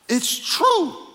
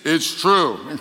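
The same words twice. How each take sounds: First: It is said in a normal voice. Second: It is said in a deeper voice.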